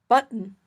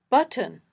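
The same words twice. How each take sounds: First: The t is a catch in the throat. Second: The t is released with a puff of air. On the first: "this glottal stop" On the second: "a puffy t"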